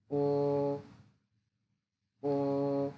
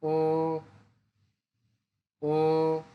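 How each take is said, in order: First: ও held level and long; Mandarin first tone. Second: ও rising; Mandarin second tone. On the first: Teacher drills the first tone on ও, level. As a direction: keep ও flat. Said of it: "first tone". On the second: Teacher drills the second tone on ও, rising. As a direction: lift ও upward. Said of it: "second tone". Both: Shown as a demonstration.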